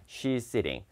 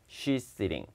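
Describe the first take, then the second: No difference in how they are said.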